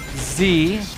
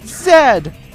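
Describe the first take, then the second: First: The letter name is said as 'zee'. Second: The letter name is said as 'zed'. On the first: "You guys can pronounce it Z" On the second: "I'm gonna pronounce it Zed"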